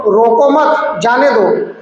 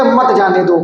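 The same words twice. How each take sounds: First: रोको मत joined as one phrase, then जाने दो; pause after मत. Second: मत grouped with जाने दो as one phrase; pause before मत. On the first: Calling after the angry uncle as he leaves, pause after मत. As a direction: run रोको straight into मत, then break before जाने दो. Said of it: "अब पीछे से आप तेज से बोलो". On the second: Teacher showing the comma's meaning, मत joined to जाने दो. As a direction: run मत straight into जाने दो. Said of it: "थोड़ी देर रुक गए". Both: Shown as a demonstration.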